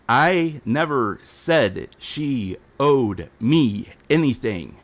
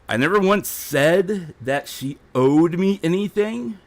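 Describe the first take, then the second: First: It is said slowly and deliberately. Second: It is said at a normal speed.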